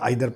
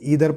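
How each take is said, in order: First: The first vowel sounds like 'eye'. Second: The first vowel sounds like 'ee'. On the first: "pronounce कैसा भी कर सकते" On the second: "pronounce कैसा भी कर सकते"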